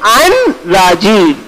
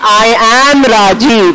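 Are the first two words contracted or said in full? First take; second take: contracted; full. First: I and am merge into one contracted syllable. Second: The words I and am are both fully pronounced. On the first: "I'm saying I'm Rajiv" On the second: "I'm not saying I am Rajiv"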